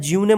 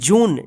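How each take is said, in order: First: It is said with a y glide and extra syllable. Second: It is said as one syllable, joon. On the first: The speaker calls it wrong. "जूने या ज्यूने मत पढ़िएगा" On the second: The speaker calls it right. "इसको क्या पढ़ेंगे"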